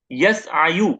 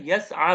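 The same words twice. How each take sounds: First: यसआयु slowly, with the final yu sounded; original form यसआयु. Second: यसआ ending on a long aa; changed form यसआ. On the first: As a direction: spell out यसआयु slowly, ending on yu. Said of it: "ऐसा था ये". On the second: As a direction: say यसआ, final yu dropped into an open aa. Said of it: "ये क्या बन जाता है". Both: Shown as a demonstration.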